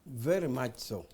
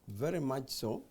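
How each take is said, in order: Both takes have the same delivery.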